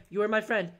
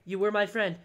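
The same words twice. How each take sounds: The two takes are said the same way.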